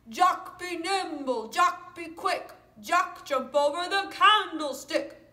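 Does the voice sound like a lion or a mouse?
lion. It is said in a big lion voice.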